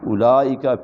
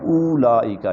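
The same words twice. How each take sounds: First: The first vowel is short, with no waw sound. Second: The first vowel is drawn out with a waw sound. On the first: The speaker calls it right. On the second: The speaker calls it wrong.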